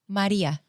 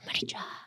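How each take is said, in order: First: The j in the name sounds like y. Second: The j in the name sounds like English j. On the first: The speaker calls it right. "But our J is Y" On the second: The speaker calls it wrong. "I used to always get annoyed when people would call me"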